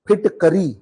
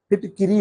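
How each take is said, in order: First: The middle syllable is said as 'ka'. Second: The middle syllable is said as 'ki'. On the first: This is the everyday way people say it. The speaker calls it wrong. "हम लोग बोलते हैं फिटकरी" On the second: This is the standard form of the word. The speaker calls it right. "फिटकिरी होता है"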